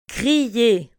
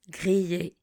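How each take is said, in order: First: Grillé said clearly at full voice; teacher models Grillé for learners, clearly; model word. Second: Grillé repeated softer and lower. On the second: Teacher echoes Grillé quietly for the class. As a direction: softly echo Grillé. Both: Shown as a demonstration. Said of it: "Répétez après moi".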